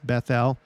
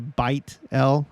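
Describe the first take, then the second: First: The name is said the English way. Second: The name is said the modern Hebrew way. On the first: "when you read the King King James, it's Bethel" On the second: "in New Hebrew, house or home is bait... this would be Beit El"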